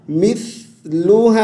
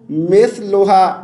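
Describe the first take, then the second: First: मिसलुहा chanted "mith-luhaa"; correct short i. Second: मिसलुहा spoken as "meth-loha"; wrong e vowel. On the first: Teacher gives the correct reading, मिसलुहा as chanted "mith-luhaa". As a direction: clear i in मिसलुहा, long final aa. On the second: Teacher shows the mistake, मिसलुहा as "meth-loha". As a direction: say मिसलुहा with e in the first syllable. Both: Shown as a demonstration. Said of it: "मिस नहीं पढ़ना".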